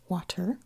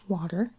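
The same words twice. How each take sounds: First: The middle T is crisp and fully released. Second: The middle T is soft and weakened. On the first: "like really get that T in there" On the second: "I just kind of have a softened T"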